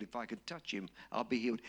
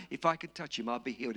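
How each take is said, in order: First: Quiet murmur. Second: Said in the usual way. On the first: Retold or imitated. The woman repeating her hope to herself, in a soft murmur. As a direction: lower and softer, said under the breath.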